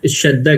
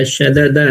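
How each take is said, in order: First: شدہ with the two د joined into one held sound; merged double dal. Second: شددہ with each د sounded apart; two separate dals. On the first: Teacher showing students how two dals merge, doubled dal. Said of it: "دو دال کو ملا دیتے ہیں". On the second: Teacher showing students the unmerged form, two separate dals. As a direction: say شددہ as three open syllables, sha-da-da. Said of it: "دو دال جیسے آ گیا". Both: Shown as a demonstration.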